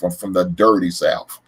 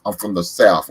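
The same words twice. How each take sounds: First: Dirty drawn out and leaned on, slow; stress on dirty. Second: Said in the usual way. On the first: Shown as a demonstration. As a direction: land hard on the word dirty, slowly.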